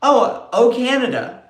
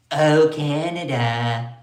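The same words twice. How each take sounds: First: High, loud sung O Canada; sung, belt out the anthem line in a mock Trump voice; mock singing. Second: Drawn-out slow sung O Canada; sung, stretch it out like a lazy anthem; slow mock singing. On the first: Sung, vlogger mocking Trump's post, loud sing-song. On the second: Sung, vlogger mocking Trump, slow drawn-out sing-song.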